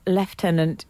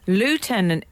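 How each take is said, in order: First: The word is said the British way. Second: The word is said the American way. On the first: "is the British way" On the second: "is an Americanism"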